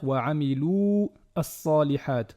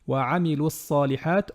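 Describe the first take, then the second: First: The final vowel of 'amilu' is drawn out long. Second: The final vowel of 'amilu' is short. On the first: The speaker calls it wrong. "on ne va pas dire" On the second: The speaker calls it right. "elle fait disparaître la prolongation précédente"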